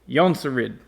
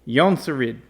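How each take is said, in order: Both takes have the same delivery.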